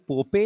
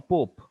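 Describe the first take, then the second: First: "pope" said PO-pay, two syllables; both vowels pronounced. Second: "pope" as one syllable, pohp; silent final e. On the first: Teacher quizzing students, two-syllable "pope" as po-pay. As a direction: sound the final e in "pope" as ay. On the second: Teacher quizzing students, one-syllable "pope". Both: Shown as a demonstration. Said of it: "are we pronouncing both the vowels".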